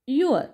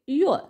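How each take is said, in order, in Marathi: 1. हे एका आखूड संकुचित अक्षरात म्हटले जाते. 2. हे एका आखूड संकुचित अक्षरात म्हटले जाते.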